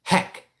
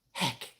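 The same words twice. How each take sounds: First: Firm, punched HECK as a model to copy; older sister teaching. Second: Small, soft echo of HECK; baby sister echoing. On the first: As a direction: lightly imitate a sister prompting with HECK. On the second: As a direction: mimic a baby quietly parroting HECK. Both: Retold or imitated. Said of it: "Aura is teaching her how to say things".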